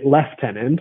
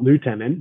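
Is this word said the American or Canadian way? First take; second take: Canadian; American. First: The word is said the Canadian way. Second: The word is said the American way. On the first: "American listeners will hear me say lieutenant" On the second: "and not lieutenant"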